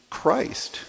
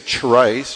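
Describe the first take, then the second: First: The word begins with a k sound. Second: The word begins with a ch sound. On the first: The speaker calls it right. "it's usually transliterated as a C-H and pronounced with like a K sound" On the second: The speaker calls it wrong. "We don't say"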